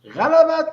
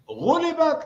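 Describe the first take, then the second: First: The word begins with the vowel a: ghalabat. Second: The word begins with the vowel u: ghulibat. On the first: They won. "غَلَبَتْ is win" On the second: They lost. "غُلِبَتْ lost"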